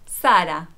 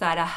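First: The word ends on the vowel, no h. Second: The final h is sounded at the end. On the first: The speaker calls it right. "decimos Sara. Al final de la palabra, la hey es muda" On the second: The speaker calls it wrong. "No decimos Sara"

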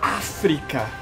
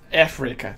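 First: The word has a Portuguese pronunciation. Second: The word has an English pronunciation.

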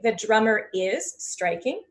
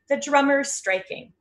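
First: The verb is said in full as a separate word. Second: The verb is contracted and joined to the subject. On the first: "You could say" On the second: "So you can practice those short forms"

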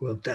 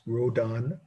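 First: It is said with a French accent. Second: It is said with an American accent.

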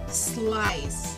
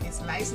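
First: The word starts directly with the s sound. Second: An extra e vowel comes before the s. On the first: The speaker calls it right. "Tenemos que empezar desde la S" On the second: The speaker calls it wrong. "tendemos a ponerle aquí una E inexistente"

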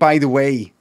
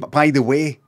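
First: It is said with an English accent. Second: It is said with a Scottish accent. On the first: "That's got the English, though" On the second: "He's not saying"

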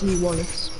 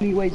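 First: The surname is said as two syllables, 'Wallace'. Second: The surname is said as one syllable, 'Ways'. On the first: The speaker calls it right. "it's Lee Wallace" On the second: The speaker calls it wrong. "it's not Lee Ways"

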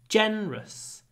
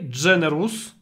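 First: The word is said with only two syllables. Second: The word is said with three full syllables. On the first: The speaker calls it right. "Make it two syllables" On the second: The speaker calls it wrong. "Don't say generous"

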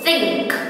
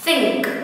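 The two takes are said the same way.

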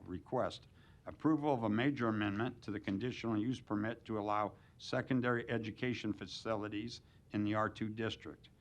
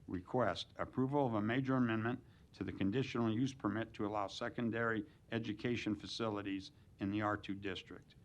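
No difference in how they are said.

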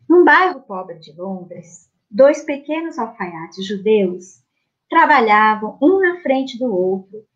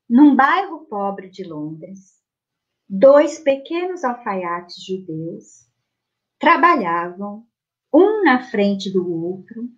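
First: It is read at a quicker pace. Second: It is read at a slower pace.

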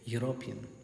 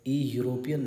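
First: The word begins with a 'y' consonant sound. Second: The word begins with an 'ee' vowel sound. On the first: The speaker calls it right. "बल्कि ये simply यूरोपियन है" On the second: The speaker calls it wrong. "ई यूरोपियन नहीं है"

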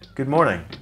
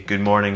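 First: The voice is lively with varied pitch movement. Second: The voice is flat with little pitch movement. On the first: The speaker calls it right. "I haven't said them in the same way" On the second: The speaker calls it wrong. "It's monotone"

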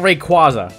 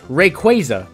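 First: The middle syllable is said 'kwah', as in 'father'. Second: The middle syllable is said 'kway', as in 'quasar'. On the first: The speaker calls it wrong. "Not Rayquaza" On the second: The speaker calls it right. "This guy's an often discussed one"

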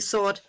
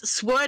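First: The W sound is silent after the S. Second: The W sound is pronounced after the S. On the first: The speaker calls it right. "it's actually sword" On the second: The speaker calls it wrong. "I used to say it sword when I was younger"

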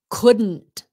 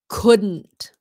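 First: The words are run together as one contraction. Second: The same.

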